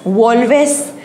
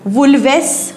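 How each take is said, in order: First: Two syllables, with an o vowel first. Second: Two syllables, with an extra vowel before s. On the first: "असं नाही आहे" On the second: "असं नाही आहे"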